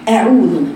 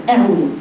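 First: أعوذ with a full, open hamza fatha; correct fatha. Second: أعوذ with a weak, half-open hamza fatha; wrong fatha. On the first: Teacher models the right أعوذ. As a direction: open the jaw fully on أعوذ. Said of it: "وهي الصحيح". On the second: Teacher imitates a lazy أعوذ. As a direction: mumble the opening of أعوذ. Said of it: "يقرأ هكذا". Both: Shown as a demonstration.

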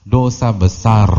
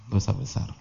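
First: DOSA BESAR slow and loud; stress on DOSA BESAR. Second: Much softer, sober restatement; quiet repeat. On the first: Preacher gives the verdict, DOSA BESAR stressed. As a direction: drive home DOSA BESAR, stretched out. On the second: Preacher repeats the verdict to listeners, quietly. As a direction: drop the volume and let it sink in. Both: Real, not acted.

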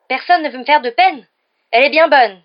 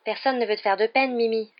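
First: Very loud, high indignant wail; lamenting. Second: Slightly raised, placating assurance; reassuring. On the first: Mimi scoffs at Hermione's assurance, wailing loudly. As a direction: throw it back as a bitter lament. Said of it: "se lamenta Mimi". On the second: Hermione reassures an upset Mimi, placatingly. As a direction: soothe the offended ghost. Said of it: "assura Hermione". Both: A narrator's reading.

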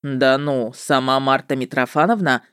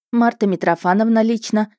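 First: Low, mock-impressed witcher voice; drawling witcher. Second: Slightly raised, smug name-drop; name MARTA MITROFANOVNA with a light scoff; mild smirk. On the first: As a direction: draw out the doubt in a lower voice. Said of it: "С каким-то сложным выражением протянул он". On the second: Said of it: "Я хмыкнула в точности, как он". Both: A narrator's reading.

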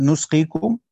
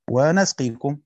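First: Stressed nu- opening in نسقيكم; damma on the nun. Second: Stressed na- in ونسقيكم; fatha on the nun. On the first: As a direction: say نسقيكم as "nusqikum", louder, rising. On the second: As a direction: say ونسقيكم as "wa-nasqikum", louder. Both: Shown as a demonstration. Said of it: "هيبقى الفرق بينهم إيه".

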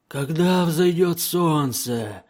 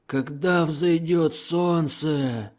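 First: High, slow, eerie demon wail; howling gurgling voice. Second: High, slow demon wail leaning on когда; howling gurgling voice. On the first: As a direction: draw it out like a fearful gurgling daemon. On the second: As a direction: stretch it out, frightened and inhuman. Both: A narrator's reading. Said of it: "Лихорадочно воющими и булькающими голосами".

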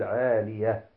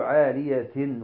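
First: عالية ending in h, no -tin; stopped on ha. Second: عالية with a sounded t and final -in; don't pause the ending, voice it -tin; full tanween ending. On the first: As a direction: say عالية as 'aaliyah. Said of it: "بل نقول عالية". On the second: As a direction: say عالية as 'aaliyatin. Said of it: "لا نقول عالية ونقف". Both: Shown as a demonstration.

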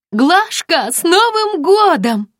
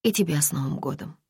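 First: High, loud and slow festive shout; yelling into the phone. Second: Said in the usual way. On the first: Acted. Friend yells a New Year greeting into the phone, loud. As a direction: bellow the greeting down the line. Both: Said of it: "заорала та в трубку".

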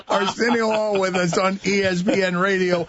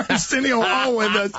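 First: Said in the usual way. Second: Talking through a laugh. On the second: Real, not acted. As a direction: still chuckling on the words. Host still laughing after joke.

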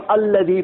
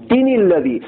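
First: الذی begun afresh with a clear "al"; fresh start. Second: تین الذی run together as "tinil-ladhi"; joined with nun. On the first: Teacher shows reading after a stop, الذی started afresh with "al". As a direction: start الذی on its own, sounding the opening "al". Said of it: "اب الذی پڑھیں گے". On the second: Teacher shows continuing without stopping, تین الذی linked as "tinil-ladhi". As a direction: link تین الذی through the n, dropping the "al". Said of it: "اس نون کے ساتھ پڑھنا ہے". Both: Shown as a demonstration.

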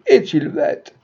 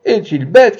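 First: Mocking croupier. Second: High, loud mocking cry; croupier's cry. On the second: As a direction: shout the taunt across the table. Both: A narrator's reading. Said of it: "criait le croupier".

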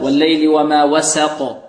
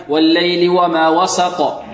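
First: "وسق" with thin s and fronted vowel; correct light sin. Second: "وسق" with sin thickened towards sad; wrong heavy sin. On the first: Teacher recites it correctly, light sin in "وسق". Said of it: "والسين مرققة". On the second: Teacher shows students what to avoid, heavy sin in "وسق". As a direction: recite "وسق" as if spelt "وصق". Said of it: "نحذر من تفخيم السين". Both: Shown as a demonstration.

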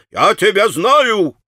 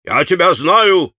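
First: Higher and slow, hammering it; irritated exclamation, stronger. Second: Sharp and annoyed, a bit slow; angry clerk exclaiming; irritated exclamation. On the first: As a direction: repeat it angrier, drawn out. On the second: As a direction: jab the words at him. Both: A narrator's reading. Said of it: "восклицал он раздражённо".

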